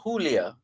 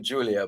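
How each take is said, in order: First: The name is said with a Spanish pronunciation. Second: The name is said with an English pronunciation. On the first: "it's a Spanish name, ... might very well prefer to hear Julia" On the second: "as opposed to Julia"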